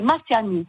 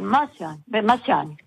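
First: The name is said with a flat French melody. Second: The name is said with a musical Corsican melody. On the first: This is how outsiders say the name. "Elia hanno sempre la stessa tonalità, dunque Massiani" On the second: This is how locals say the name. "Mi dice che noi Massiani"

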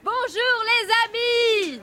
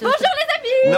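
First: It is said at a normal, softer volume. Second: It is said louder than before.

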